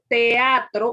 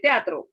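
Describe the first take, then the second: First: The e and a are in separate syllables. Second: The e and a merge into one syllable. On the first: It is the standard form. The speaker calls it right. "usted dice teatro" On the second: It is a regional dialect form. The speaker calls it wrong. "usted no dice teatro"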